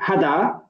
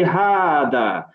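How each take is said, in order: First: The first vowel is short. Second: The first vowel is long. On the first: The speaker calls it wrong. "we don't say hada" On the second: The speaker calls it right. "we say hada. This is an example where an alif is not written, however, it is pronounced"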